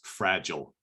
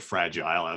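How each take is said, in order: First: The word has an American pronunciation. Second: The word has a British pronunciation.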